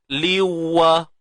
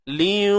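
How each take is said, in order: First: The n merges fully into w without nasality. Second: The n merges partly, leaving a nasal sound. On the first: The merging is complete. "kalau sempurna, maksudnya kita direct masuk tanwin tu terus pada waw" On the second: The merging is incomplete. "tapi kalau begini ... Makhraj nun hilang"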